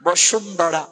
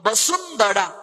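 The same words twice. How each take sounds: First: The middle consonant sounds like English sh. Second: The middle consonant sounds like English s. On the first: This is the Bengali pronunciation. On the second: This is the Sanskrit pronunciation.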